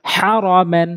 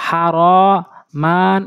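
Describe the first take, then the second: First: "হ্যারমেন" in one short run, vowels not held; quick, unstretched. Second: "হা র মান" dragged, each vowel held long; wrongly drawn out. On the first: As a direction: say "হ্যারমেন" quickly as the correct model. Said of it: "উচ্চারণ করতে হবে দ্রুত". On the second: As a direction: demonstrate the mistake, stretching out "হা র মান". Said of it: "টান দিয়ে পড়া যাবে না". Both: Shown as a demonstration.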